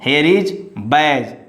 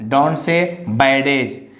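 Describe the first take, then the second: First: No separate d sound is pronounced in the word. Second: A separate d sound is pronounced in the word. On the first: The speaker calls it right. "silent letter D before G" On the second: The speaker calls it wrong. "Don't say"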